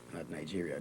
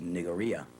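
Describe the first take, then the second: First: The g is said as a j sound. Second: The g is a hard g sound. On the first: The speaker calls it wrong. "There's no J in the spelling of Nigeria" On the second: The speaker calls it right. "the right pronunciation of Nigeria is Nigeria"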